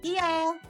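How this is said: It sounds like a willing, agreeable yes. Go ahead, that's fine. "Sure, go ahead"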